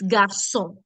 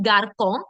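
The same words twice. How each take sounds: First: The middle consonant is a soft S sound. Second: The middle consonant is a hard K sound. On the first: The speaker calls it right. "the sound becomes S" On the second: The speaker calls it wrong. "instead of this being garçon"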